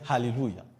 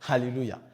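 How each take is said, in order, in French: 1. L'attaque du A est prononcée avec un fort souffle. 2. L'attaque du A est prononcée avec un fort souffle.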